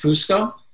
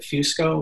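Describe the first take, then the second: First: The first syllable has a plain 'oo' vowel. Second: The first syllable sounds like 'few' in fusion. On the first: "The traditional Italian pronunciation is Fusco" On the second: "my dad pronounces it Fusco, which is like this American bastardization of, ... the F-U sound is like fusion"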